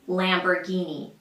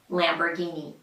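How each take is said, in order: No difference in how they are said.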